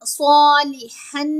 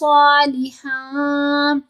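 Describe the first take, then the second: First: The final n is pronounced fully and clearly. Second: The final n is hidden in a nasal sound. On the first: The speaker calls it wrong. "सालिहन नहीं करना" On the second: The speaker calls it right. "इख्फा का कायदा लग रहा है ना"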